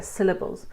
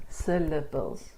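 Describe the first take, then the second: First: Said in the usual way. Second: "Syllables" slowly broken into syl-la-bles. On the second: Shown as a demonstration. Teacher showing learners that we speak in syllables, syllable by syllable. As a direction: say "Syllables" one beat at a time, slowly. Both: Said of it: "we speak in syllables".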